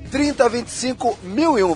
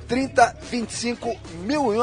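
First: It is said at normal speed. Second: It is said slowly.

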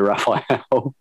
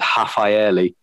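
First: The name begins with an English R sound. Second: The name begins with an H-like sound. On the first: "you can take a bit of license and say Raphael" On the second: "if you want to do it like properly in Portuguese, it's Rafaeli... you pronounce it like as an H"

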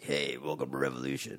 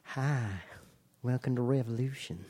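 First: It is said in a tough voice. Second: It is said in a sweet Southern voice.

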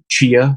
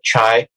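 First: The word is pronounced like 'chia'. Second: The word is pronounced like 'chai'. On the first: This is how some people say it. The speaker calls it wrong. "chia is how some people pronounce it" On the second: This is how the speaker says it. The speaker calls it right. "but chai"

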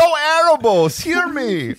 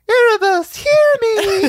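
First: A gruff voice with an East Coast accent. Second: A small, childlike voice. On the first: The speaker calls it right. "that's a very Eastern Bill Burr" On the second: The speaker calls it wrong. "little Kira's like"

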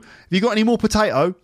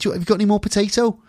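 First: It is spoken in a Cockney accent. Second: It is spoken in a Liverpool accent. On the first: "you might hear a Cockney say" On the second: "In Liverpool"

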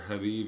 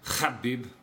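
First: The first sound is a plain soft h. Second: The first sound is a rough throat sound. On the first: The speaker calls it wrong. "both are wrong" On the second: The speaker calls it right. "with the throat"

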